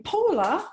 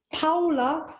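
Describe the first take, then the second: First: First vowel of "Paula" like "oh", questioning; Paula with an "oh" sound. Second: First vowel of "Paula" like "ow" in cow; Paula with an "ow" sound. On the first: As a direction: say "Paula" as POH-la, rising. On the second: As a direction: say "Paula" as POW-la, rising. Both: Shown as a demonstration. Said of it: "did you say Paula or Paula?".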